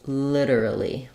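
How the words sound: It is said in an American accent. "In American English, we do this like literally"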